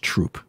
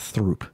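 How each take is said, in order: First: The name starts with a plain 't' sound. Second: The name starts with a 'th' sound. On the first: The speaker calls it right. "it's Troop" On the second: The speaker calls it wrong. "It's not Throop"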